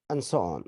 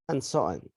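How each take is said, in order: Both takes have the same delivery.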